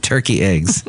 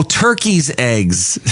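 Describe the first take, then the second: First: Said in the usual way. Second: TURKEY'S drawn out slowly, raised; stress on TURKEY'S. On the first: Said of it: "Not to be confused with". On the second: Shown as a demonstration. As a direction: stretch the possessive TURKEY'S to mark the country. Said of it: "Not to be confused with turkey eggs".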